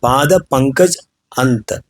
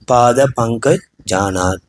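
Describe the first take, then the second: First: The words are said separately, without joining. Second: The words are joined together into one flow. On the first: "इधर पाद पंकज अंत" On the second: "इसको क्या एक साथ करेंगे तो क्या होगा"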